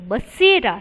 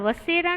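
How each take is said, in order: First: The word begins with a 'b' sound. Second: The word begins with a 'v' sound. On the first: The speaker calls it right. "बसेरा है। यहाँ पर ब है" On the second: The speaker calls it wrong. "यहाँ पर वसेरा नहीं है बच्चों"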